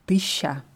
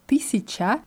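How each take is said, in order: First: The word is shortened, with syllables dropped. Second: All syllables are pronounced clearly and fully. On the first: This is the casual, everyday pronunciation. "Nur in der Umgangssprache hört man oft tischa" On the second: This is the careful, standard pronunciation. "das wird so richtig ausgesprochen"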